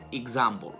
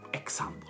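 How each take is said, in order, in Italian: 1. La x suona come g seguita da z. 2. La x suona come k seguita da s. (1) "La X si pronuncia come una G seguita da una Z" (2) "esempio in inglese non è example, assolutamente"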